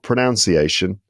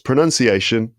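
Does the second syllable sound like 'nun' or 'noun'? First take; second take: noun; nun. First: The second syllable sounds like 'noun'. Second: The second syllable sounds like 'nun'. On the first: The speaker calls it wrong. "not pronunciation" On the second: The speaker calls it right. "that's pronunciation, not pronunciation"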